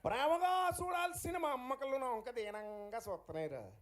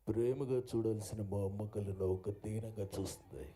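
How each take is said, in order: First: It is delivered in a light, comic put-on voice. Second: It is delivered in a grand, heroic put-on voice. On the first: "ఆయన స్టైల్లో" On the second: "ఇంత ఘనంగా ఆయన చెప్తే"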